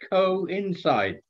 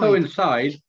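First: It is split into two parts, co and inside. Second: It is said smoothly as one word. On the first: The speaker calls it right. "Two words, yeah. Co dash inside" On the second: The speaker calls it wrong. "Not coincide"

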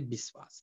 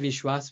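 First: It begins with a 'b' sound and has 's'. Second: It begins with a 'v' sound and has 'shw'. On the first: This is the Awadhi and Bhojpuri form used by the community. "we say Biswas" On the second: This is the standard Hindi form. "We don't say Vishwas"

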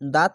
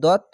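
First: The vowel is a light, open 'aa' sound. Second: The vowel is a heavy, rounded 'o' sound. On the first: The speaker calls it wrong. "তার জন্য আকার উচ্চারণ হবে না, দাঁত না বলে" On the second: The speaker calls it right. "দত এভাবে হবে"

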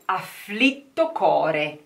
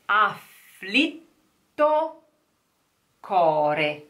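First: The words flow together smoothly and fluently. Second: The words are said separately and slowly.

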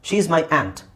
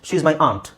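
First: Aunt has a short vowel like in cat. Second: Aunt has a long open vowel like in father. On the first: "American ಇಂಗ್ಲೀಷಲ್ಲಿ ಆ್ಯಂಟ್ ಅಂತ ಹೇಳ್ತಾರೆ" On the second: "correct pronunciation ಬ್ರಿಟಿಷರು ಅವ್ರು ಹೇಳೋದು ಆಂಟ್"

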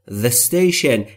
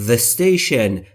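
The two takes are said the same way.

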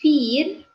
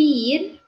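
First: The I and E merge into one long I. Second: The I and E merge into one long I.

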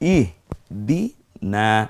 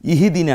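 First: The h is closed with no vowel after it. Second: An extra i vowel follows the h sound. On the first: The speaker calls it right. "কিন্তু ইহ দি না" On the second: The speaker calls it wrong. "বাস ইহি দিনা না"

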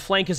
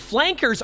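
First: The word is said in a Boston accent. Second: The word is said in a neutral accent.

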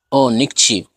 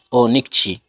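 The two takes are said the same way.

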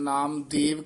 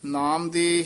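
First: The name ends with an added 'v' sound. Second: The name ends on the vowel, without 'v'. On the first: The speaker calls it wrong. "ਕਈ ਪਾਠੀ ਸਿੰਘ ਵਾਵਾ ਵਾਧੀ ਲਾ ਜਾਂਦੇ ਹਨ" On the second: The speaker calls it right. "ਇੱਥੇ ਨਾਮ ਦੇ ਹੀ ਹੈ"

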